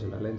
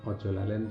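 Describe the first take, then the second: First: The phrase is said quickly, run together as one word. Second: The phrase is said slowly with both words separate.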